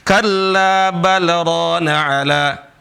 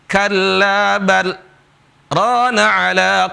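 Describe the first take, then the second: First: It runs straight on with no pause. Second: There is a brief pause after bal. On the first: The speaker calls it wrong. "itu nggak berhenti" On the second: The speaker calls it right. "tapi berhenti"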